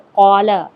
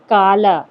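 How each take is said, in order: First: It starts with a deep back-of-throat q sound. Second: It starts with a plain front k sound. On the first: The speaker calls it right. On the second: The speaker calls it wrong.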